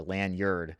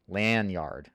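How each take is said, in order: First: Lanyard as LAN-yerd, second syllable weak; reduced-vowel lanyard. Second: Lanyard as slow LAN-YARD; full-vowel lanyard. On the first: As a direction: let lanyard end on a short yerd. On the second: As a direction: draw out lanyard with an open ah in YARD. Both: Shown as a demonstration. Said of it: "lanyard or lanyard".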